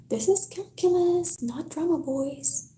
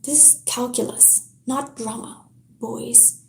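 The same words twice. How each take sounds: First: High, lilting mockery; a teacher sneering at two boys, mocking sing-song. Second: Said in the usual way. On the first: A narrator's reading. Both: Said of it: "in a mocking sing-song voice".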